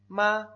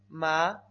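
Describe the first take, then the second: First: The pitch stays high and level. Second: The pitch rises from middle to high. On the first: "Primer tono"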